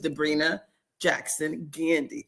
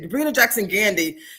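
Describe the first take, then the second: First: The name is said slowly. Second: The name is said fast.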